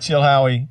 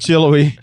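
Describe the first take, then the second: First: The middle h sound is clearly pronounced. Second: The middle h sound is dropped entirely. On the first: This may be how locals say it. "Tennesseans may say Chill Howie" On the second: This is how the speaker has always said it. "I've always just said Chillowy"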